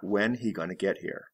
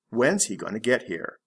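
First: Is is left out completely. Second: Is is contracted onto when.

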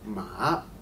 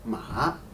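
No difference in how they are said.

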